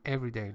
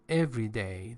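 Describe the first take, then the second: First: The stress falls on the first syllable, 'every'. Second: The stress does not fall on the first syllable. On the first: It is an adjective describing something ordinary. "That's why I just put the stress on the first syllable" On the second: It means on each day. "There's a space between every and day"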